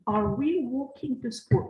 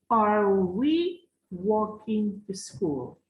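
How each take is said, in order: First: Said in the usual way. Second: Slow model reading. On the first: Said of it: "teacher repeats at normal pace". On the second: Shown as a demonstration. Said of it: "teacher models the question slowly".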